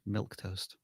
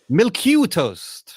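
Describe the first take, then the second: First: The name is said with two syllables. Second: The name is said with three syllables. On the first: "I think you're right, Dan" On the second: "I would have added an extra syllable"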